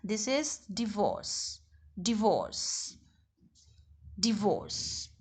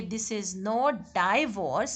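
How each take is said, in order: First: "divorce" slow and soft, di-VORCE with a short i; soft, slow di-VORCE, not dai-vorce; correct divorce. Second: "not" leaned on and pitched up, slow; slow, weighted "not"; slow correction stressing "not". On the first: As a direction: model "divorce" quietly as di-VORCE. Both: Shown as a demonstration.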